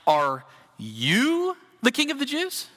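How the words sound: It is asked in a condescending, mocking tone.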